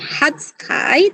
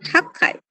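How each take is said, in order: First: A 'tsu' syllable comes before 'kai'. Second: A doubled 'k' leads into 'kai'. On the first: The speaker calls it wrong. "Bukan hatsukai" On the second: The speaker calls it right. "tapi hakai"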